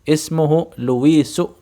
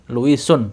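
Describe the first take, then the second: First: The name ends in a plain vowel. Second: The name ends with an added n sound. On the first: The speaker calls it right. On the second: The speaker calls it wrong. "bukan Luisun, salah"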